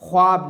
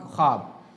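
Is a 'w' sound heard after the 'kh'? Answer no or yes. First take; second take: yes; no. First: A 'w' sound is pronounced after the 'kh'. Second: No 'w' sound is pronounced after the 'kh'. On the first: The speaker calls it wrong. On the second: The speaker calls it right.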